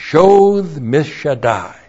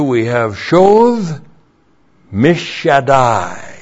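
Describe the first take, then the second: First: Shoth mishadai said as one smooth phrase, a touch slow; repeated Hebrew wordplay. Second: Shoth mishadai said slowly, syllable by syllable; slow Hebrew wordplay; shoth mishadai sounded out. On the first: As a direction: run Shoth mishadai together. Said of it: "a play on words". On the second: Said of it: "we have a play on words". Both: Shown as a demonstration.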